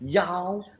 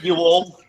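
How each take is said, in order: First: It is said as one contracted syllable. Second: It is said as two full separate words. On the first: The speaker calls it right. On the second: The speaker calls it wrong.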